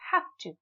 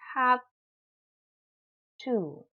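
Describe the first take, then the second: First: The words run together, with a voiceless v. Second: The words are separate, with a voiced v. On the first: "in rapid speech, very fluently, very fast ... it becomes voiceless" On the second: "When we pronounce them separately"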